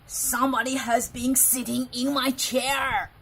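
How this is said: It is said in a great big, growling voice.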